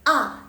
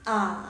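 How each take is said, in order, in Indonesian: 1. Nadanya jatuh tajam dari tinggi ke rendah. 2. Nadanya turun lalu naik. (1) "dia dari atas ke bawah" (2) "Yang ketiga turun, naik"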